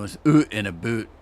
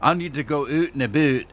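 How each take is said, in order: First: Oot and a boot with a long round oo, oot like hoot, boot like boot; exaggerated Scottish-like Canadian accent. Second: Oot and a boot said lightly, oot only half rounded; a gentle Canadian lilt on oot and a boot; subtle Canadian accent. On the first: Explaining to viewers how he exaggerates, in a heavy Canadian accent. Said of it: "more like a Scottish person". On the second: Showing viewers how real Canadians say it, in a subtle Canadian accent. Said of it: "they don't exaggerate it like I did". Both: Shown as a demonstration.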